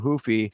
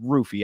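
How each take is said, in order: First: The name begins with an H-like sound. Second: The name begins with an R sound. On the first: The speaker calls it wrong. "I keep doing the the the uh, uh, Portuguese pronunciation" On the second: The speaker calls it right. "he pronounces it with the R"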